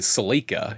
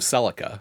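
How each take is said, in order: First: It is said the Canadian way. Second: It is said the American way. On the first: "Canadians say Celica" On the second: "instead of Celica"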